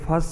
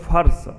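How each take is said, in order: First: The word ends with a plain s sound. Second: The word ends with an r and sh sound. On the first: This is the original Prakrit form. The speaker calls it right. "लेकिन फस ही सही है" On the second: This is the usual Hindi form. The speaker calls it wrong. "आप बोलोगे फर्श"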